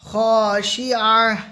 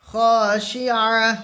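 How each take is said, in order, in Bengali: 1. শব্দটি থেমে যাওয়া 'h' ধ্বনি দিয়ে শেষ হয়। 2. শব্দটি থেমে যাওয়া 'h' ধ্বনি দিয়ে শেষ হয়।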